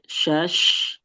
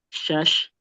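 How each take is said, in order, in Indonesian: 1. Bunyi sh mengalir keluar dan ditahan lama. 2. Bunyi sh cepat dan pendek. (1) "dialirkan tuh kan alir, mengalir" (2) "Jadi jangan kecepatan juga"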